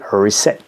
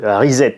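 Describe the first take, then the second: First: The word is pronounced the English way. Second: The word is pronounced the French way. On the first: "pour la bonne prononciation en anglais" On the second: "un R, un I, un Z, un E et deux T E à la fin"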